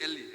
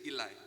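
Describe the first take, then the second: First: The name is said with an Ewe pronunciation. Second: The name is said with an English pronunciation. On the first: "the Ewe is Eli" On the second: "the English is Eli"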